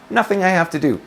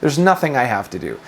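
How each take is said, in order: First: A raised, deliberate affirmation; spoken aloud on purpose. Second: Said in the usual way. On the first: Shown as a demonstration. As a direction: voice it deliberately as a declaration. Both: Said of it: "Just say it with your mouth".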